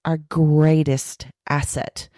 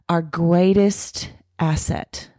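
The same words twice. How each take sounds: The two takes are said the same way.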